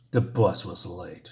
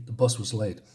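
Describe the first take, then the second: First: Slow, lower mocking repeat of the excuse; mocking echo. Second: Said in the usual way. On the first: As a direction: throw his words back at him, slowly and lower. Bully mocks Scott's excuse.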